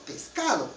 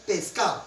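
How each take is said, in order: First: Said in the usual way. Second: "pescado" with the d dropped, ending -ao; coastal dropped d. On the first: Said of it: "aquí nosotros en Huancayo". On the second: Shown as a demonstration. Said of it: "Mayormente los costeños". ("pescado" sin la d, como "pescao" costeño)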